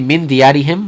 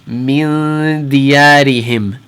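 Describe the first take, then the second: First: The nasal sound before the d is cut short. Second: The nasal sound before the d is held longer. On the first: The speaker calls it wrong. "we're not going to say min diyarihim" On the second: The speaker calls it right. "We're going to hold it, ... for about two haraka"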